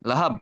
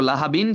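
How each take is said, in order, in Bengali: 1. শব্দটি 'b' উচ্চারণে হঠাৎ শেষ হয়ে যায়। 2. শব্দের শেষে একটা বাড়তি 'in' উচ্চারণ আছে। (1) "ওয়াকফ করে ফেলতেছি এটা হয়ে যাবে কি লাহাব" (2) "লাহাবিন ছিল"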